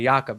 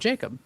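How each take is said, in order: First: The name has its original foreign pronunciation. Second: The name has an English pronunciation. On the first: The name keeps its native form. "they kind of keep the original pronunciation" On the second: The name is translated into English. "because that was a proper English translation"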